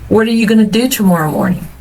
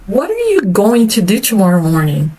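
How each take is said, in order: First: 'Going to' is reduced to 'gonna'. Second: 'Going to' is said in full, spaced out. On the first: The speaker is not trying to emphasize anything. "se eu não tenho o objetivo de enfatizar, eu vou normalmente optar pela primeira e pela terceira opção" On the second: The speaker wants to emphasize it. "se eu quero enfatizar uma coisa, a tendência é a gente falar é, mais espaçado"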